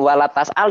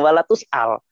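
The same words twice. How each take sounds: First: "tas'al" dengan vokal A; dialek Hafes. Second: "tus'al" dengan vokal U, agak pelan; dialek Waras. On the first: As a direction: ucapkan "wala tas'al" dengan TAS, bukan TUS. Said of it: "masalah dialek". ("tas'al" gaya bacaan Hafes) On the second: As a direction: ucapkan "wala tus'al" dengan TUS, bukan TAS. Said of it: "Dialeknya Waras". ("tus'al" gaya bacaan Waras) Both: Shown as a demonstration.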